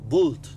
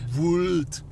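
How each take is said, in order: First: The vowel is an open o sound. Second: The vowel is a close oo sound. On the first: The speaker calls it right. "Ich wollt" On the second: The speaker calls it wrong. "Nicht wult"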